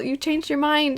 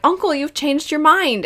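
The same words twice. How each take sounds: First: Put-on sweet childlike Zuko. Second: Sweet happy Zuko. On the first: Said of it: "Zuko genuinely seemed sweet happy". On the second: Retold or imitated. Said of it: "the sweetest he's ever sounded".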